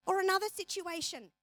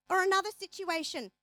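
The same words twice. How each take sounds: The two takes are said the same way.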